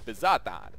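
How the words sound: The name is said in an Italian accent. "my Italian accent's probably really horrible"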